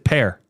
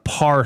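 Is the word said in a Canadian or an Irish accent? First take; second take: Irish; Canadian. First: It is said in an Irish accent. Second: It is said in a Canadian accent. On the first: This shows a relative's Northern Irish roots. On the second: This is the everyday local way of saying it.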